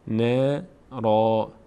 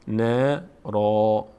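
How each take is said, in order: Both takes have the same delivery.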